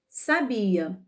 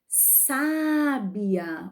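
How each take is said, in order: First: The stress is on the middle syllable. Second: The stress is on the first syllable. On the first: Someone knew something. "aqui não temos acento nenhum" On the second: Someone is wise. "quando temos o acento aqui, ó, na primeira sílaba"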